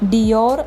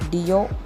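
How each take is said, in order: First: The word ends with an r sound. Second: The word ends without an r sound. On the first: The speaker calls it wrong. "ഡിയോർ എന്ന് നമ്മൾ പറയുമെങ്കിലും" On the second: The speaker calls it right. "Pronounce ചെയ്യേണ്ട ശരിയായ രീതി"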